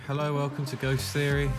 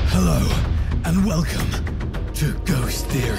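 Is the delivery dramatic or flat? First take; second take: flat; dramatic. First: It is said in a flat, toned-down way. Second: It is said in a big, dramatic way.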